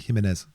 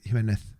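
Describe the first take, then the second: First: The final consonant is a plain 's' sound. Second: The final consonant is a lisped 'th' sound. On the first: It is how people say it in Latin America. "if you go to like South America, like Mexico and all, they'll say Jimenez" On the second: It copies the old Spanish king's speech. "he had a, a speech impediment, so he used to say Jimenez"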